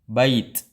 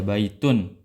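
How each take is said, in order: First: The word stops on a bare 't'. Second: The word ends with an 'un' sound. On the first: The reader pauses on the word. "Tapi kalau dia jadi wakof" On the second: The word is read with its tanwin ending. "adapun di ketika tanwin ya"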